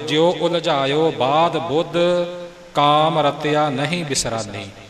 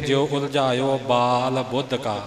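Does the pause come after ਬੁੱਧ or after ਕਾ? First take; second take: after ਬੁੱਧ; after ਕਾ. First: The pause comes after Buddha. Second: The pause comes after ਕਾ.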